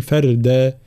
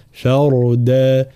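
First: "فردا" with a thin, light raa. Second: "فردا" slowly with a full, heavy raa. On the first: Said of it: "فلا نقول". ("فردا" بترقيق الراء خطأ) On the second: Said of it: "هكذا". ("فردا" بتفخيم الراء) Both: Shown as a demonstration.

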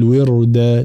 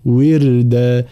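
First: وردا with a thick, heavy r; mispronounced وردا, ra given full heaviness; faulty heavy ra. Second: وردا with a thin, light r, drawn out; slow وردا, ra softened and thinned; correct light ra. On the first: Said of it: "فلا نقول وردا". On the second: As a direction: keep the r in وردا light after the i, slowly. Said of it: "لا وردا هكذا". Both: Shown as a demonstration.

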